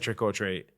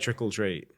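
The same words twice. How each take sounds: First: Each word is said clearly and separately. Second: The words run together like 'trickle treat'. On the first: This is the standard form locals don't use. "They don't say trick or treat" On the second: This is how people say it locally. "where I'm from, people say trick or treat"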